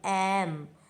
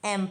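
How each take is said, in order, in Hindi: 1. यह शब्द ज़ोर देकर खींचकर बोला गया है। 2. यह शब्द छोटा और सीधा बोला गया है। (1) "थोड़ा खींच के बोलेंगे" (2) "सिर्फ एम पढ़ेंगे"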